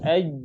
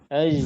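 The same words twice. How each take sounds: First: Breath is held back on the final sound. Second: Breath flows out audibly through the final sound. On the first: The speaker calls it right. "Tapi harus aj" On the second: The speaker calls it wrong. "Jangan aj"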